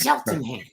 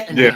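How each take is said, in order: First: The name starts with 'chel' and includes 'ten'. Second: The name starts with 'shet' and includes 'land'. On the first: The speaker calls it right. "It's Cheltenham" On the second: The speaker calls it wrong. "I kept calling it Shetland, Shetlandham. But I said, that's, that's not it"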